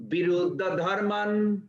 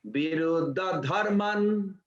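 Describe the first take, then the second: First: Viruddha dharman repeated slowly, a bit louder, for the room to hear; a little louder. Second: Chanted, Viruddha dharman said slowly and carefully, each syllable clear; chanted, recite Viruddha dharman slowly for the class to repeat; slow Sanskrit chant. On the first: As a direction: say Viruddha dharman again, louder, so they can follow. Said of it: "utter a little loud so I can hear". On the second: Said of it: "Maybe one person can utter a little loud". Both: Shown as a demonstration.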